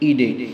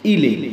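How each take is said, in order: First: The middle consonant is a d-like sound. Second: The middle consonant is an l-like sound. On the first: "कहीं पर ईडे उच्चारण किया जाता है" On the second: "तो कहीं पर ईले उच्चारण किया जाता है"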